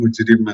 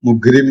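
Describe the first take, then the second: First: The second consonant is a soft j sound. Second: The second consonant is a hard g sound.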